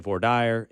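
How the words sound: It is said the Southern way.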